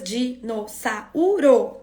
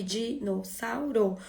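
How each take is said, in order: First: Dinossauro in slow separate beats, di-no-ssa-u-ro; slow, chunked "dinossauro" with an extra beat on u; split into syllables. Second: Dinossauro broken into spoken chunks, di-no-ssau-ro; syllable-by-syllable "dinossauro", au unsplit; split into syllables. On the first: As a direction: break "dinossauro" up slowly, a and u apart. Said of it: "nesse momento eu tô segmentando". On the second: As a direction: say "dinossauro" piece by piece, ssau kept as one. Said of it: "ele vai conseguir". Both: Shown as a demonstration.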